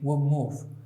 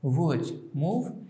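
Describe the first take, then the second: First: The last sound of 'would' changes to link. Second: Each word's last sound is said in full. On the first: "natural sound would be" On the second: "Written form would be"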